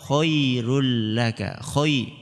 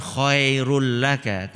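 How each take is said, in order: First: Slow khoi-rul laka with a clean i; correct khoi-rul laka. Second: Khoe with an e in khairul; wrong khoe-rul laka. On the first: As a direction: clear i glide in khairul. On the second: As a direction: demonstrate the misread vowel in khairul laka. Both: Shown as a demonstration.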